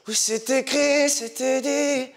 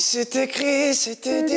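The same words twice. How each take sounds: First: Airy pop singer imitation, slow; sing-speak it like [name], breathy. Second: Airy, breath-heavy singing voice; breathy voice. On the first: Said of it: "tu prends la voix [name]". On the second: Pretend. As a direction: let lots of air through the words. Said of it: "je prends une voix soufflée comme ça".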